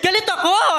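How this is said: The voice sounds happy. "yung galit ako ng masaya?"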